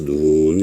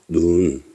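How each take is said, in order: First: The vowel is said long. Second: The vowel is said short. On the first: "길게 발음을 해야 합니다. 눈 이렇게" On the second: "얘는 단음이고"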